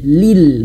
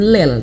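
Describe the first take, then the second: First: The vowel sounds like a clear i. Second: The vowel sounds like an e. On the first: The speaker calls it right. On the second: The speaker calls it wrong.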